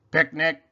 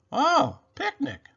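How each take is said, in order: First: Monotone robot voice, slightly higher, louder. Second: High, exclaiming rabbit voice. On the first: Robot answers Rabbit at the picnic, monotone robot voice. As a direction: say it evenly as a robot. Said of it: "said Robot". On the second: Rabbit replies to Robot at the picnic, high exclamation. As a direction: pitch it way up, then drop at the end. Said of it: "said Rabbit". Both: A narrator's reading.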